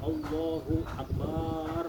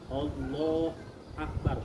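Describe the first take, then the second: First: The sounds are stretched out far too long. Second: The syllable "hu" is left out entirely. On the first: "bacanya kepanjangan" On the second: "hu-nya nggak ada"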